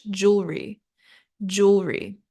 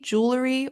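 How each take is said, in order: First: British pronunciation. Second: American pronunciation. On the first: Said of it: "or British". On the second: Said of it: "either in American English". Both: Shown as a demonstration.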